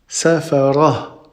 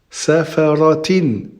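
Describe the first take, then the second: First: The ending stops softly with no t sound. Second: The ending is said with a t and vowels. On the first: The reader stops on this word. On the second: The reader continues on to the next word.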